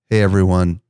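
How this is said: The greeting sounds subdued and genuine.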